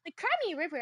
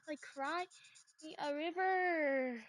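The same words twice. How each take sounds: First: Said in the usual way. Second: Slow sarcastic taunt; mocking drawl. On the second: Real, not acted. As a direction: drag out "me a river" slowly and mockingly. Mocking repeat of the phrase.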